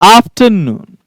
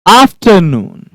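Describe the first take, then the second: The two takes are said the same way.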